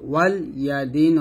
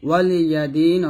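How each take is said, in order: First: The L is closed with no following vowel. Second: The L is followed by a short i vowel. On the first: Guardian of the day. The speaker calls it wrong. "লামের উপর সাকিন দিয়ে পড়তেছেন" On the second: For me is my recompense. The speaker calls it right. "ওয়ালি ইয়াদিন অর্থ আমার জন্য আমার কর্মফল"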